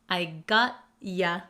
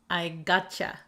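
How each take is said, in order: First: The ending is a separate 'ya' sound. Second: The ending blends into a 'cha' sound. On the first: "you often gets shortened to ya" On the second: "here we say it really quickly"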